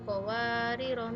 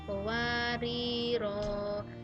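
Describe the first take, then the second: First: The final vowel is kept short. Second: The final vowel is held long. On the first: The reading continues past this word. "ketika diwasulkan maka rohnya dibaca pendek" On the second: The reading stops at this word. "ketika wakof itu dibaca panjang rohnya yang akhir"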